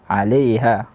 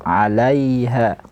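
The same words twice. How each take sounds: First: The syllable after l sounds like le. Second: The syllable after l sounds like la. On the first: The speaker calls it wrong. "tidak dibaca la tapi le" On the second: The speaker calls it right. "harusnya dibaca dengan 'alaiha"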